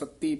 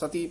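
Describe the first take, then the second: First: The middle consonant is doubled and tight. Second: The middle consonant is short and loose. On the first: It refers to the seven watches of the day. "ਕਸ ਕੇ ਉਚਾਰਨ ਕਰਨਾ" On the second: It is a different word from the seven watches. "ਉੱਥੇ ਪੋਲਾ ਹੈ"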